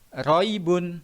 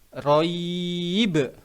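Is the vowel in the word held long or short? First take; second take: short; long. First: The vowel in the word is held short. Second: The vowel in the word is held long. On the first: "dibaca biasa, dibaca pendek" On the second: "ketika wakof dibaca roib"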